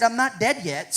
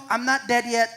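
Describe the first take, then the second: First: A wry, amused protest; mock-indignant, half-laughing; joking disbelief. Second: A wry, amused repeat, a touch firmer; mock-indignant, half-laughing; joking disbelief repeated. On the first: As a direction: tease the superintendent with it. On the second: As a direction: press the joke home with a smile. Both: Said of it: "I said".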